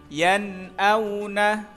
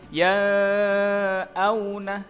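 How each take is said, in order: First: The n is pronounced clearly and distinctly. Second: The n is obscured and barely heard. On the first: The speaker calls it right. "yang betul harus dibaca jelas atau terang" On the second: The speaker calls it wrong. "atau dibaca samar"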